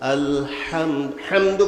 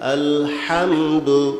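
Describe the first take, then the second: First: The syllable ham is cut off and repeated. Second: The word flows smoothly with the mouth open. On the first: The speaker calls it wrong. "করলে হবে না, গলত" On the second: The speaker calls it right. "মুখ খুলতে হবে"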